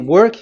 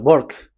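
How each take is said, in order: First: The word starts with a W sound. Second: The word starts with a B sound. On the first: "if you say work" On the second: "W is pronounced as B. So if you say work, they say uh, work"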